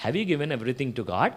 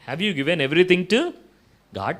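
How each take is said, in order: First: Said in the usual way. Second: Slow, louder repeat of the question; insistent repeat; pressing question. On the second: Retold or imitated. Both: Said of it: "అన్నాడంట".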